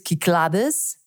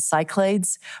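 First: The name is pronounced the Greek way. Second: The name is pronounced the English way. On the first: "but in Greek it's Kyklades" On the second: "I think it's the Cyclades"

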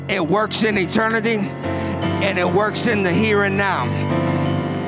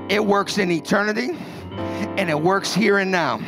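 First: It is said in a loud, energetic preaching voice. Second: It is said in a plain, calmer voice.

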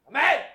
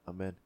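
First: It is shouted loudly and forcefully. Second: It is said at a normal, quiet volume.

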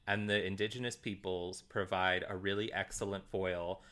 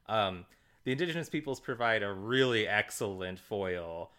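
First: It is said in a plain, sincere tone. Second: It is said in a mocking, sarcastic tone. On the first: The praise is meant literally. "I felt like I couldn't say it sarcastically" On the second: The praise is meant as criticism. "the really excellent was said extremely sarcastically"

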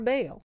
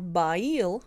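First: The vowel sounds like ay. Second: The vowel sounds like eye. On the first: This is how the word is pronounced today. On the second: This is how the word was once pronounced.

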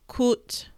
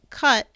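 First: The vowel is a rounded 'oo' sound. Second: The vowel is an open 'uh' sound. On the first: The speaker calls it right. "it's coot" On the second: The speaker calls it wrong. "it's not cut"

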